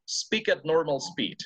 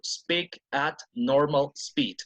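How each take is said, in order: First: The words run together with no pauses. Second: There is a pause after every word.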